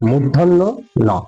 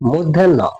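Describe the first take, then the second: First: It is said as two words, 'murdhonno no'. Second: It runs together as one word, 'moddhanno'. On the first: The speaker calls it right. "আসলে এই বর্ণটির সঠিক উচ্চারণ হচ্ছে মূর্ধন্য ন" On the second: The speaker calls it wrong. "এই বর্ণটিকে আমি বলতাম আগে মধ্যাহ্ন"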